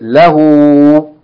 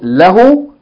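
First: The final vowel is held for two counts. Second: The final vowel is short. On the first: The speaker calls it right. "you say" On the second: The speaker calls it wrong. "Instead of saying"

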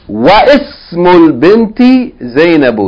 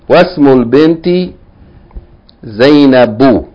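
First: The i of ism is pronounced separately. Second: The i of ism is dropped, joining wasmul. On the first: The speaker calls it wrong. "He didn't say wa ismul binti Zainabu" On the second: The speaker calls it right. "He said was"

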